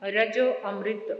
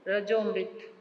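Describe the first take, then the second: First: The vowel before 'mrit' is clearly pronounced. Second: The vowel before 'mrit' is dropped. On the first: It means nectar of immortality. The speaker calls it right. "ध्यान से इसका उच्चारण करना है" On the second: It means dead. The speaker calls it wrong. "मृत नहीं बोलना"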